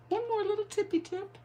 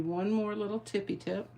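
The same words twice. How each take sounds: First: Very high, squeaky little voice; tiny playful voice. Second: Said in the usual way. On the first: Pretend. Crafter teasing one more little tip, tiny high voice. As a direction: repeat it cutely, pitched way up.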